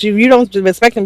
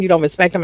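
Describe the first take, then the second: First: Don't pushed higher and harder; stress on don't. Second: Said in the usual way. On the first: Real, not acted. Vlogger scolding the girls, hitting don't. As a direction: lean into don't. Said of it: "repeats with emphasis". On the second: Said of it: "repeats, softer".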